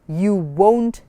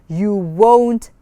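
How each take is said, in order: The two takes are said the same way.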